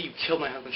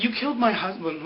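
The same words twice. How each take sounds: First: Said in the usual way. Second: Higher-pitched retold accusation; mock accusation. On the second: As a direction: play the accusing widow, raised pitch. Acts out Sun accusing Ben.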